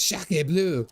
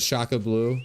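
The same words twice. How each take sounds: First: Daughter's exclamation, pitched up at the end; imitating daughter. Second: Said in the usual way. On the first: Dad quoting his daughter's French, imitated with gusto. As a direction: mimic the daughter with a punchy, rising finish. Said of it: "She says Shaka Blue". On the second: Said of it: "my daughter says".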